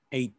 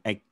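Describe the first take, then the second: First: The gh letters are not sounded at all. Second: The gh letters are sounded in the word. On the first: The speaker calls it right. "Jadi eight ya" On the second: The speaker calls it wrong. "bukan eight ya"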